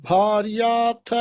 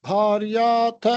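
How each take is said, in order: Both takes have the same delivery.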